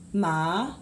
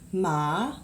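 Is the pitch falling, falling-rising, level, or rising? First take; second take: rising; rising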